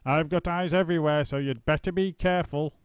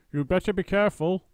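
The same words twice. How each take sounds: First: Higher, louder sly threat; mildly cackling old wife; gloating warning. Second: Higher, louder warning wife; old wife's shrill-pitched threat; Missus Twit warning. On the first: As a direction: tease him with the warning. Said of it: "cackled Missus Twit". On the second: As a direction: wag a finger at him with your voice. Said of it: "Missus Twit said". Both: A narrator's reading.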